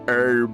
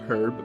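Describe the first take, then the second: First: The word is said in an American way. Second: The word is said in a non-American way. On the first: The speaker calls it right. "but herb. I'm gonna be real American" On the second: The speaker calls it wrong. "not herb"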